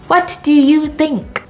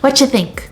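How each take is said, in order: First: Every word is said separately in full. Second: The words are squeezed tightly into fewer syllables. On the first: "taking the long form" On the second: "compressing it really tightly"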